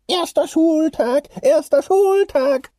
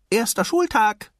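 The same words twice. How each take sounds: First: Sung, high, slow, loud muffled singsong; muffled singing. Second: High, loud little clownfish; excited calling out. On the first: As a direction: sing it stuck head-first, drawn out high. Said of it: "sang Nemo mit ziemlich gedämpfter Stimme". (sung, mit gedämpfter Stimme hoch singen) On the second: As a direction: shout it to wake Dad, high-pitched. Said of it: "rief er seinem Vater zu". (aufgeregt rufend) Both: A narrator's reading.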